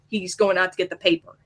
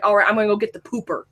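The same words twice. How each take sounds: First: Said in the usual way. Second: "pooper" said with an oo sound where "paper" should be; imitating dad, rapid, saying "pooper" with a long oo; dad's odd pronunciation. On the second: Imitating her dad's quirky way of saying "pooper". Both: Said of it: "pronounces things weird".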